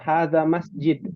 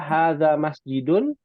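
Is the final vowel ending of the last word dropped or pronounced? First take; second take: dropped; pronounced. First: The last word ends without its final vowel ending. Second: The last word ends with its full final ending. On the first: The speaker calls it wrong. "jangan hadza masjid" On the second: The speaker calls it right. "harus dibaca juga masjidun"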